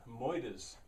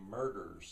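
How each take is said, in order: First: It is said in a non-standard accent. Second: It is said in a standard American accent. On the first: "is what I was saying was so funny" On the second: "In standard English, American English anyway, you'd say murders"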